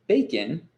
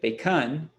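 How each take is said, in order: First: The stress is on the first syllable. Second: The stress is on the second syllable. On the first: The speaker calls it right. "the emphasis is on the first syllable" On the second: The speaker calls it wrong. "If we reverse this stress"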